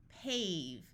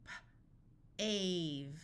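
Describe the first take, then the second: First: Said in the usual way. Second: Puffed P, pause, then "ave"; sounded out. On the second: Shown as a demonstration. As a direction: break "P, ave" into separate sounds. Phonics teacher sounds out, then blends.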